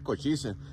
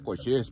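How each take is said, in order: First: The name is said with a final vowel sound. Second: The name ends without a final vowel sound. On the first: The speaker calls it wrong. "no se dice cochise" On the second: The speaker calls it right. "Se pronuncia cochís"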